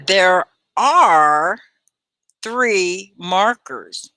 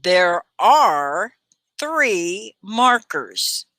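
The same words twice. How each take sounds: First: Slow, stretched teacher model; slow stressed drill voice; slow model sentence. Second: Slow drill with three stressed; careful slow teacher model; slow model sentence. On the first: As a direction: say each word slowly for the class to copy. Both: Shown as a demonstration. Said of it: "Can you say this?".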